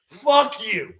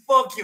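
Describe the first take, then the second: First: Angry shout. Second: Highest shout. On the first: Cursing out Albuquerque. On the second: Peak of the curse. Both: Real, not acted.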